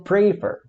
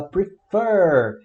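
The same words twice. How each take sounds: First: Prefer with the weight on PRE; wrong first-syllable stress. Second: Prefer with a long, punched FER; stress on the last syllable. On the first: Teacher showing the mistake to avoid, prefer stressed on PRE. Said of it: "e não prefer". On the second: Teacher showing students how we say it, prefer stressed on FER. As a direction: hit the second syllable of prefer hard. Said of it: "a gente fala prefer". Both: Shown as a demonstration.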